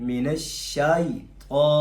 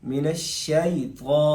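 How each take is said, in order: Both takes have the same delivery.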